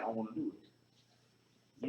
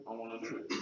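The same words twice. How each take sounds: First: Slow, stretched-out I wanna do it, low and soft; drawn-out slow. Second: Said in the usual way. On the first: Shown as a demonstration. To listeners, slow drawn-out I wanna do it. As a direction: drag out I wanna do it like savoring it.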